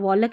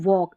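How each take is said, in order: First: An l sound is pronounced before the k. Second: No l sound is pronounced before the k. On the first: The speaker calls it wrong. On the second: The speaker calls it right.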